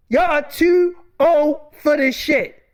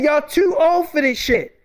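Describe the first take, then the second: First: Slower, leaning on too; slow emphatic repeat. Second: Said in the usual way. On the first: Real, not acted. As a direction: drive the point home slowly.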